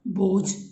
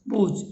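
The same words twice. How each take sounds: First: The final consonant is aspirated. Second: The final consonant is unaspirated. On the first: This is the standard form. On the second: This is the Khadi Boli form.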